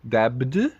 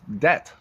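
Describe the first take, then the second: First: A B sound is heard in the word. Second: No B sound is heard in the word. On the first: The speaker calls it wrong. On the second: The speaker calls it right.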